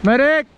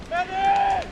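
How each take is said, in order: First: Loud high yell for a medic; man down shout. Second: High strained call for a medic; man down shout. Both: Real, not acted. Shot in game, calling medic.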